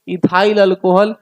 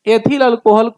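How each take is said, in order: First: The first word is said as ithail. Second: The first word is said as ethil.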